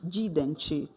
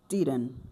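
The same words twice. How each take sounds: First: The final T is strongly released and emphasized. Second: The final T is barely heard, without emphasis. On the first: The speaker calls it wrong. "não vai ficar didn't" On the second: The speaker calls it right. "eu não coloco ênfase no T"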